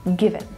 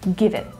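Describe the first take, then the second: First: The two words are linked smoothly together. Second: The two words are linked smoothly together.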